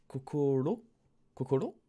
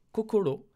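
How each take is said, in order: First: Hesitant guess at Kokoro, rising at the end; testing the word Kokoro as a doubtful question; unsure question. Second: Kokoro said higher and louder, falling firmly; relieved certainty. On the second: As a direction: land Kokoro with a sure, triumphant fall. Finally remembers the word. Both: Real, not acted.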